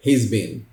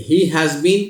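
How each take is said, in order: First: He's been, clipped and fast; quick contraction. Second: He has been, drawn out slowly; slow full form. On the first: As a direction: run he's been together. (जल्दी छोटा रूप he's been) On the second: (धीरे पूरा रूप he has been) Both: Shown as a demonstration.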